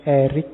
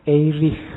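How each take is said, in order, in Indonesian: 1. Berakhir dengan bunyi 'k' Inggris yang keras. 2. Berakhir dengan bunyi 'ch' Jerman yang berdesah. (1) "orang Amerika membacanya lebih suka pakai Eric. Jadi belakangnya K" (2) "orang Jerman membacanya"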